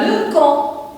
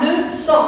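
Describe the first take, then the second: First: The middle consonant is a hard K sound. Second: The middle consonant is a soft S sound. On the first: The speaker calls it wrong. "si j'écris seulement la lettre C, on va lire là" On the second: The speaker calls it right. "je dois ajouter une petite cédille pour avoir le son se"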